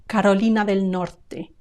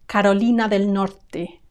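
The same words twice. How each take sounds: No difference in how they are said.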